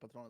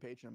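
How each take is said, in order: First: The word is said with a Spanish pronunciation. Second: The word is said with an English pronunciation. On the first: It sounds like the name of the alcohol. "I think Patron is funny" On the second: This is the intended name of the card. "it's probably supposed to be patron"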